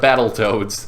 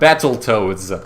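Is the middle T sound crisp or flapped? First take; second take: flapped; crisp. First: The second T is a soft, D-like flap. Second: The second T is a crisp, fully released T. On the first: The speaker calls it right. "when you pronounce it more like a D instead" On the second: The speaker calls it wrong. "If it was said the wrong way, it would be like Battletoads"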